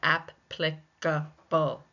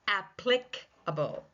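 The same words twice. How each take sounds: First: The stress is on the first syllable. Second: The stress is on the second syllable. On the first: "it's the first syllable that's taking the stress" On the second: "The second syllable can also take the stress"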